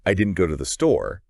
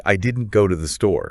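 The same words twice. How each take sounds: First: I didn't go to the store with didn't leaned on; stress on didn't. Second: I didn't go to the store with go carrying the beat; stress on go. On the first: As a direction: hit the word didn't. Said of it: "you're emphasizing that you specifically didn't go". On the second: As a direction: hit the word go. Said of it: "you're emphasizing that you didn't go at all". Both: Shown as a demonstration.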